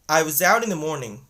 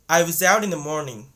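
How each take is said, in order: Both takes have the same delivery.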